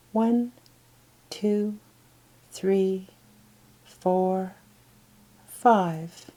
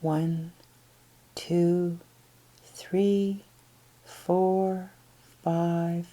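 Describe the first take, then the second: No difference in how they are said.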